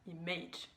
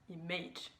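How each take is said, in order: First: The stress is on the second syllable. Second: The same.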